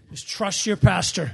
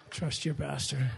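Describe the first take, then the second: First: Said in the usual way. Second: Quieter and slower, chuckling through it; soft laughing aside. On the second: Real, not acted. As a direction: murmur it back to him with a laugh. Pastor teasing blindfolded son.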